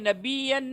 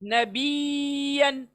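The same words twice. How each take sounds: First: The y sound is short and barely heard. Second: The y sound is doubled and clearly held. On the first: The speaker calls it wrong. "नबीयन नहीं" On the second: The speaker calls it right. "य का आवाज आना चाहिए"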